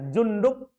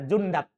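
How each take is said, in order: First: The vowel before the final b is 'u'. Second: The vowel before the final b is 'a'. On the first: "ini dalnya boleh dibaca Jundub, itu yang biasa kita dengar" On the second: "Boleh juga di fathah, boleh kita baca Jundab"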